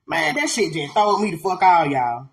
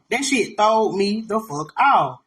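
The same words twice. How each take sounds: First: Said in the usual way. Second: "throwed me the fuck out" slowly, word by word; emphatic repeat. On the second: Real, not acted. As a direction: space out "throwed me the fuck out" for weight.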